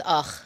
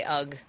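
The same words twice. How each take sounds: First: "ugh" said as "och", with a throaty ch; Yiddish-style ugh. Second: "ugh" said as "ug", ending in a hard g; "ugh" rhyming with "bug", low and understated. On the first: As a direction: end "ugh" on a guttural, Yiddish-sounding ch. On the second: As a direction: close "ugh" on a plain g, like "ug". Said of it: "I've heard people say it and they say". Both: Shown as a demonstration.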